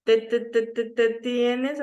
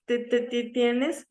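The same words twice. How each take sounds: First: Slow stuttered "te, te, te" before "tienes"; teacher demonstrating a stutter on "te"; stutter demo. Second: Slow stuttered "te, te, te" before "tienes"; stutter demo. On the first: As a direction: repeat "te" slowly, as a stutter. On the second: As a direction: stutter slowly on "te" again. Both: Shown as a demonstration. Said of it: "repiten el mismo sonido".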